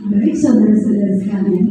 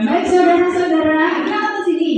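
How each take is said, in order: First: "Baik, saudara-saudara sekalian" pitched lower with a falling end; lower demo. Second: "Baik, saudara-saudara" pitched higher; higher demo. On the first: Teacher demos the greeting in a lower voice. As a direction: drop into a low chest voice. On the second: Teacher demos the greeting in a higher voice. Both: Shown as a demonstration.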